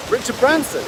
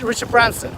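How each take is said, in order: First: Retold disbelief, pitched high; surprised echo. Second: Said in the usual way. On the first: Student reacting to instructor's famous boss, retold surprise. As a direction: echo the name as if astonished. He echoes the name, amazed.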